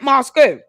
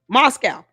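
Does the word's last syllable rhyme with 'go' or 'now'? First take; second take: go; now. First: The last syllable rhymes with 'go'. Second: The last syllable rhymes with 'now'. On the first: The speaker calls it wrong. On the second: The speaker calls it right.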